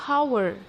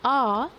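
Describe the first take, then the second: First: The word begins with an audible H sound. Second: The word begins with no H sound. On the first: The speaker calls it wrong. "We don't say hour" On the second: The speaker calls it right. "H is silent"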